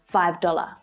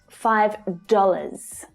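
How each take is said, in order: First: The final S sound is left off. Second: The final S sound is clearly pronounced. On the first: The speaker calls it wrong. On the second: The speaker calls it right.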